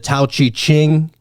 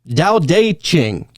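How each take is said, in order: First: The title begins with a T sound. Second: The title begins with a D sound. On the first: The speaker calls it wrong. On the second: The speaker calls it right.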